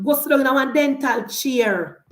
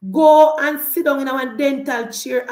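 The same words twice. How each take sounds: First: Said in the usual way. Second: Mocking louder repeat aimed at Angela Brown Burke. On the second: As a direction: Go punched louder in a scornful repeat.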